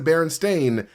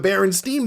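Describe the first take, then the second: First: The last syllable rhymes with 'rain'. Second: The last syllable rhymes with 'line'. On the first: This is the form used officially. "even though I said Berenstain" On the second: This is the form the speaker believes is correct. "I still say Berenstein on my free time because it is the Berenstein Bears"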